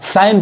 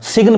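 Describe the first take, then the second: First: The g is silent, said like sine. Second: The g is pronounced before the n. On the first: The speaker calls it right. "जी नहीं पढ़ाएगा, साइन पढ़ाएगा" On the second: The speaker calls it wrong. "सिग्न पढ़ेंगे गलत हो जाएगा"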